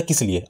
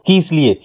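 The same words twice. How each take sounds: First: Said in the usual way. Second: "किस लिए" with the i of "कि" held long; drawn out. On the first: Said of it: "मान लीजिए ये शब्द है". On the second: Shown as a demonstration. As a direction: stretch "किस लिए" on its first vowel. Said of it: "इसी शब्द को खींच करके बोल दीजिए". ("किस लिए" को खींचकर, लंबी ई के साथ)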